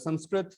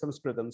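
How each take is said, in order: First: The word ends on a final t sound. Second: The word ends with an extra am syllable. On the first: The speaker calls it wrong. "even the way I'm pronouncing Sanskrit is wrong" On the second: The speaker calls it right. "It's Sanskritam"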